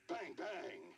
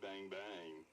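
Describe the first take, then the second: First: It is said in an angry tone. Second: It is said in a flirty tone.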